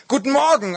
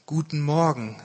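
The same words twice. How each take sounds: First: High, loud excited reply; keyed-up, pitched well above usual; eager greeting. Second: Said in the usual way. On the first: A narrator's reading. Speaker eagerly answers the computer.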